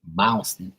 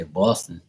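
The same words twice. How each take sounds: First: "Boston" in a mimicked Boston accent. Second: Said in the usual way. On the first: Shown as a demonstration. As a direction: exaggerate the local Boston vowel in "Boston". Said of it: "they say Boston". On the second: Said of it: "I say Boston".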